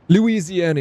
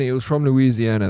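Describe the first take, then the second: First: "Louisiana" blurted out high and loud on remembering; eager recall. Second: Said in the usual way. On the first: Real, not acted. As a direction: burst out with "Louisiana" as the name finally comes. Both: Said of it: "what's the states?".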